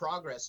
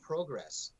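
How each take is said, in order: First: It is said with an American pronunciation. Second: It is said with a Canadian or British pronunciation. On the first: "the word progress down here" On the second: "is pronounced progress up in Canada and in UK"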